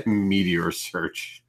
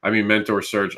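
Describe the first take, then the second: First: "Meteor search" read out slowly, word for word as misspelt; reading the typo. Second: Said in the usual way. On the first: Shown as a demonstration. Host reads his misspelled banner aloud, slow amused reading. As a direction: sound out "Meteor" slowly like a blunder you just caught. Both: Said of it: "I spelt mentor wrong".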